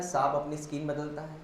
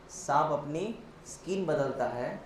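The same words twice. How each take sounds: First: Said in the usual way. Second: Drawn-out phrases, pause and lift after अपनी; slow emphatic repeat. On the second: Shown as a demonstration. Teacher driving home the snake comparison, slow and segmented. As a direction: say it slowly, piece by piece, letting skin stand out.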